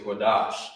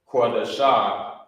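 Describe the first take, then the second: First: The word ends on the consonant 'sh' sound. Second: The word ends with an extra final 'a' vowel. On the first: The speaker calls it right. "it's connected at the bottom. You say Quadash" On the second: The speaker calls it wrong. "instead of saying um the shah, Quadasha"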